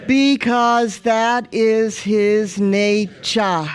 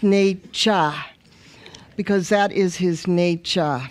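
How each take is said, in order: First: Said in the usual way. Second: Nature said as nay-sha, East African accent. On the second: Shown as a demonstration. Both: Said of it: "With the East African accent".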